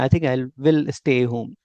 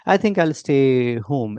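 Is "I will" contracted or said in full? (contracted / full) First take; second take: full; contracted. First: "I will" is said as two full words. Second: "I will" is shortened to "I'll". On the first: This is the form non-native speakers prefer. "But इसको हम prefer ऐसे ही करते हैं बोलना" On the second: This is how native speakers say it. "ऐसे थोड़ा सा native बोलते हैं"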